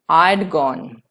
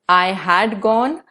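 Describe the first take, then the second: First: Had is reduced to a single d sound. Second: The word had is said in full.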